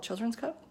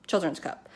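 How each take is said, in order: First: Quietly unsure of the name; unsure question. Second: Said in the usual way. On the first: Real, not acted. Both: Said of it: "I don't know what that company's called".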